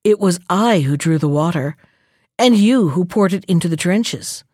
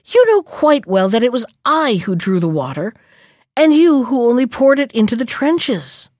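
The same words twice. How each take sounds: First: Low-pitched, composed contradiction; understated, assured rebuttal; contradicting. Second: Mildly affronted, pitch lifting toward the end; storybook indignation, emphatic but controlled; indignant protest. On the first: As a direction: calmly turn the claim around. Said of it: "You are mistaken". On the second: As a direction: insist on being in the right. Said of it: "she asked indignantly". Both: A narrator's reading.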